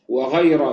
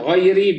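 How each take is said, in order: First: The word ends with an a vowel. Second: The word ends with an i vowel. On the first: It marks an exception. "بالفتح" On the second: It describes the word letter. "بالكسر"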